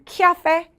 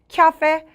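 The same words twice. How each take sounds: First: It is said with a 'kya' sound, English-style. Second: The same.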